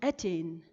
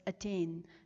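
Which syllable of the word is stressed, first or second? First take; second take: first; second. First: The stress is on the first syllable. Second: The stress is on the second syllable. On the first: The speaker calls it wrong. "and not attain" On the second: The speaker calls it right. "we stress on the second syllable and not on the first. So we say it as attain"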